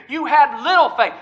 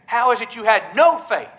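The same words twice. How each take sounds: First: LITTLE pitched higher in "little faith"; stress on LITTLE. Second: NO leaned on in "no faith"; stress on NO. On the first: Preacher quoting Jesus to Peter, stress on LITTLE. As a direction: punch LITTLE to mark the contrast. This time's rebuke, contrasted with earlier. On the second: Preacher recalling the earlier rebuke, stress on NO. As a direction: quote it with the weight on NO. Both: Retold or imitated.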